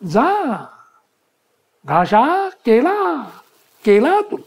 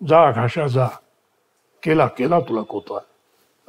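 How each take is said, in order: First: The line is spoken at a high pitch. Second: The line is spoken at a normal pitch. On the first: "या tone मध्ये बोलतो, या pitch मध्ये" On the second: "असं न म्हणता"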